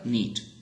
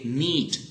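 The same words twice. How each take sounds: First: The vowel is clipped short. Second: The vowel is held long. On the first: The speaker calls it right. "but rather need, ... the vowel is shorter here" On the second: The speaker calls it wrong. "we do not say"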